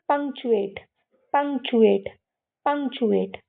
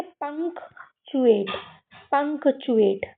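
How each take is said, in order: First: "पंक्चुएट" run together, pung-chew-ate; blended pronunciation. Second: "पंक्चुएट" in parts, punk, then chew-ate; model pronunciation. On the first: Teacher drilling the whole word, "पंक्चुएट" blended together. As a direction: say "पंक्चुएट" joined, k almost gone. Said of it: "तो मैं इसको बोलूँ". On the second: Teacher building the word for kids, "पंक्चुएट" in parts. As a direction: say "पंक्चुएट" keeping the k before ch. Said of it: "हम इसको पढ़ें". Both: Shown as a demonstration.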